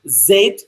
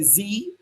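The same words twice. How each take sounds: First: The letter is said as zed. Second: The letter is said as zee.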